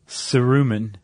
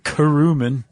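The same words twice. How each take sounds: First: The word begins with a soft S sound. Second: The word begins with a hard K sound.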